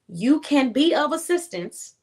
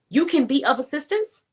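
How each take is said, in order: First: It is spoken noticeably slower and more deliberately. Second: It is spoken at a normal, quicker pace.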